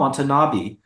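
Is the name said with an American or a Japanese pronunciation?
American. The name is said with an Americanized pronunciation. The speaker calls it wrong. "they mispronounce their own last names"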